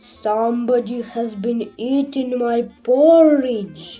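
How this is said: The voice is big, rough and gruff. "in his great rough gruff voice"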